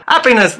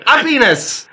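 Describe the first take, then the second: First: "Happiness" with a sounded H, high; high-pitched "Happiness" without the French dropped H; clear pronunciation. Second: "Happiness" with the H dropped, French-style; high mock-French "Happiness", opening on a vowel; French mispronunciation. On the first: Retold or imitated. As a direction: spell out "Happiness" plainly, H included. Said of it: "Oh, happiness". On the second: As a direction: say "Happiness" as 'appiness, French accent. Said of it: "Mounties that speak French".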